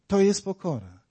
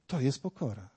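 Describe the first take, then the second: First: Said in the usual way. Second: Hushed. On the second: Shown as a demonstration. Repeated line said near-silent.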